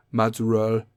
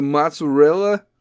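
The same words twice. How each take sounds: First: Mozzarella said as mozzarell, final vowel dropped; Italian-American mozzarella. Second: Said in the usual way. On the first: Shown as a demonstration. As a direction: clip the end off mozzarella, Italian-American style. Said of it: "They say mozz". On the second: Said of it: "But they don't say mozzarella".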